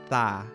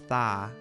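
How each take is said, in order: Both takes have the same delivery.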